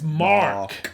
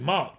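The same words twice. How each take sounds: First: The R sound after the vowel is pronounced. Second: The R sound after the vowel is silent. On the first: Listeners understood the name. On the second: Listeners misheard the name as another word.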